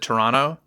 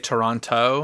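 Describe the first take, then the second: First: The second t sound is dropped. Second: The second t sound is clearly pronounced. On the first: The speaker calls it right. "they should have said Toronto" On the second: The speaker calls it wrong. "why did they say Toronto"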